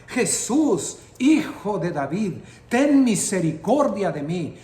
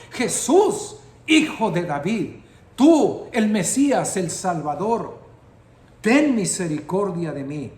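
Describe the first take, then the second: First: Loud desperate cry to Jesus. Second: Louder cry out. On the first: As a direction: call out for mercy across the crowd. (grito desesperado) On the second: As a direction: shout it even harder for mercy. (clamor más fuerte y agudo) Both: Retold or imitated. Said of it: "Comenzó a gritar".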